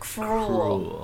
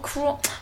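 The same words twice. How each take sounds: First: The R is rolled and clearly pronounced. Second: The R is weak and the word is quick. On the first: The speaker calls it right. "You gotta roll the R. ... is that better?" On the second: The speaker calls it wrong. "You said it too fast"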